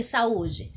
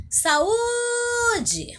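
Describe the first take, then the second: First: Said in the usual way. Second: High, drawn-out call of Saúde with a long held Ú. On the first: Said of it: "Chama aí". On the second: Shown as a demonstration. Teacher calls the word at a distant bus stop, high drawn-out call. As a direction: call Saúde to someone far away, stretching the Ú. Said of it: "você vai chamar ela".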